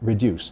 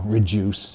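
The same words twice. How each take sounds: First: The middle has a dy sound. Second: The middle has a j sound. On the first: This is the older standard form. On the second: This is the newer, increasingly acceptable form.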